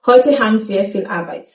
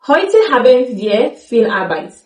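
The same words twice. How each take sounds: First: Haben squeezed to ham in Heute haben wir viel Arbeit; casual spoken Heute haben wir; reduced form. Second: Haben said in full in Heute haben wir viel Arbeit; careful textbook Heute haben wir; full form. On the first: Teacher shows what you really hear. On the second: Teacher gives the form you won't hear. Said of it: "You will not hear". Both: Shown as a demonstration.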